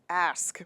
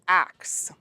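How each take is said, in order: First: The s sound comes before the k. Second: The k sound comes before the s. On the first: The speaker calls it right. "there's an S in there, kiddies. Ask" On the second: The speaker calls it wrong. "Axe, as in, I want to axe you a question. No"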